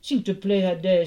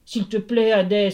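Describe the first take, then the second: First: Mild storybook plea; understated entreaty; pleading. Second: Louder, more pressing plea; raised, urgent entreaty; pleading. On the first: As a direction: beg a stern god politely. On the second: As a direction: implore an angry god. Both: A narrator's reading. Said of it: "supplia Hermès".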